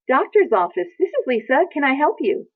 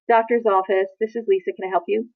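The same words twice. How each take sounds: First: The voice sounds warm and smiling. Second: The voice sounds distracted and inattentive. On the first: The person is fully present for the caller. The speaker calls it right. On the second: The person is not paying attention to the call. The speaker calls it wrong.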